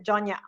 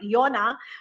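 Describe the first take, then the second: First: The word begins with a J sound. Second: The word begins with a Y sound. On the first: It is said the way locals say it. The speaker calls it right. "here on Guam we pronounce it as Jonya" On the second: It is read the way it is spelled. The speaker calls it wrong. "if you read it, it's it looks like Yona"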